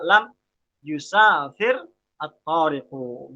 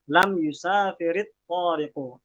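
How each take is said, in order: First: The verb's final r has no i vowel. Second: The verb's final r links with an i vowel. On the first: This is the word's original grammatical ending. "Irob aslinya tetap dia dibaca lam yusafir at-tariqu" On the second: The vowel appears only from joining the words. "karena dia mau dibaca wasal misalnya, maka ri-nya, ro-nya itu dibaca ri"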